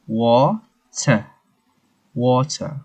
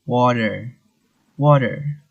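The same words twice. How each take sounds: First: British water, crisp separated T and R-less ending; UK accent. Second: US accent. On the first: Teacher showing how UK water goes, British accent. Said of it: "the U K". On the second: Teacher showing the US water in contrast, American accent. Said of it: "But for the U S". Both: Shown as a demonstration.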